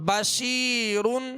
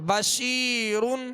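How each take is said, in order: Both takes have the same delivery.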